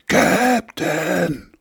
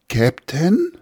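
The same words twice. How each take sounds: First: It is shouted as loud as possible. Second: It is called louder, with rising volume.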